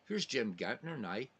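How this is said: It is said in a Northern Irish accent.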